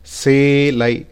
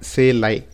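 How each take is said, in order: First: The word is said with extra force. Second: The word is said plainly, without extra force. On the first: The speaker calls it right. "Try to stress selai" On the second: The speaker calls it wrong. "So it's not selai"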